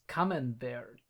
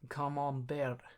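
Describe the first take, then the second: First: It is said with a plain English accent. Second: It is said with a put-on French accent.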